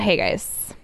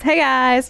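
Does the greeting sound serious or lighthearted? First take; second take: serious; lighthearted. First: The greeting sounds serious. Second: The greeting sounds lighthearted.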